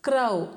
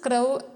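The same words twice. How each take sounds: First: The word is said the village way. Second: The word is said the standard way. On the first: The speaker calls it wrong. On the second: The speaker calls it right.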